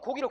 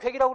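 First: The first vowel is a plain back 'o'. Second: The first vowel is fronted to 'oe'. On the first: The speaker calls it right. "여러분들 고기를 괴기라고 그래요? 안 하잖아" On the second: The speaker calls it wrong. "이 모음 동화는 표준어도 아니고 표준 발음도 안 되는 거야"

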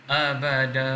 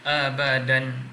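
First: The word ends with a long vowel, no n. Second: The word ends with an n sound. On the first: The speaker calls it right. "sekarang ni cara dia yang betul adalah abada" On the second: The speaker calls it wrong. "Dulu kita baca abadan"

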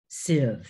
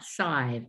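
First: The ending has a short 'ih' vowel. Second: The ending has a long 'eye' vowel. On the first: The speaker calls it right. "Expensive is sieve" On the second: The speaker calls it wrong. "not sive"

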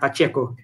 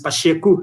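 First: The name is pronounced the Spanish way. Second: The name is pronounced the Portuguese way. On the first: The speaker calls it wrong. "not Pacheco, which is Spanish" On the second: The speaker calls it right. "The correct Portuguese pronunciation of his last name is Pacheco"

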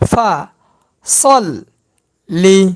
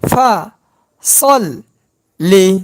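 Both takes have the same delivery.

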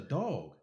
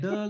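First: The vowel sounds like the 'o' in 'dog'. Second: The vowel sounds like the 'u' in 'Doug'. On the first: This is the speaker's usual pronunciation. "that's a dog" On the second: This is the local accent being imitated. "any word with that pronunciation is ug"

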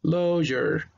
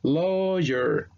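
First: The first vowel is said like an 'o'. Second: The same.

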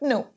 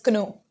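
First: The word starts with no k sound. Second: The word starts with a k sound. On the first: The speaker calls it right. "K is silent" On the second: The speaker calls it wrong. "You cannot pronounce it as kno"

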